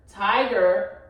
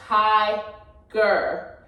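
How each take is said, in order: First: Said in the usual way. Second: "tiger" very slowly broken into tie, then ger; "tiger" pulled far apart, one slow beat per syllable; split by syllables. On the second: Shown as a demonstration. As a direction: say "tiger" as two drawn-out syllables with a gap. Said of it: "if you break it apart".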